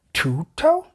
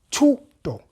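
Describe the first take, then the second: First: "Tuto" with a gliding "toh" ending, rising; high, doubtful anglicised "Tuto"; mispronounced name. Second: "Tuto" in two deliberate beats, falling; higher, measured "Tuto"; correct name pronunciation. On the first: Retold or imitated. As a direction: ask "Tuto" with an anglicised drawn final o. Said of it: "my name not being my name". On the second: Shown as a demonstration. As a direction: say "Tuto" firmly, pitched up, pure final o. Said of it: "My name is Tuto".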